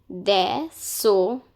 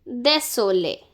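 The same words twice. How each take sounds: First: Désolé, slowed down syllable by syllable; slow teaching demo. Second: Said in the usual way. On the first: Shown as a demonstration. Teacher slows désolé down for students. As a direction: spell désolé out slowly for learners. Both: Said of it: "Now this is pronounced as lé".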